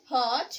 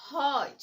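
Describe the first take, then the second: First: হট with a short o, as in "hot"; short vowel. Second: হট with a long o, as "hote"; long vowel. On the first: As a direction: say হট like English "hot". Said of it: "এবং H ও". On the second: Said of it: "T ই". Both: Shown as a demonstration.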